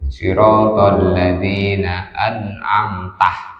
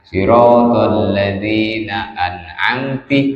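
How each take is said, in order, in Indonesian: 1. Kata terakhir berakhir dengan vokal a. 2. Kata terakhir berakhir dengan vokal i. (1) "harusnya itu" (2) "dengan kasrohnya ta"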